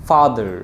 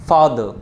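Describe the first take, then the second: No difference in how they are said.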